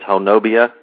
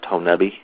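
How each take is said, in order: First: The name is read just as it is spelled. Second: The name is said the way locals say it. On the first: The speaker is from out of town. The speaker calls it wrong. "it looks like it says Honobia" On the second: The speaker knows the local usage. The speaker calls it right. "the locals will let you know that it's pronounced Honubby"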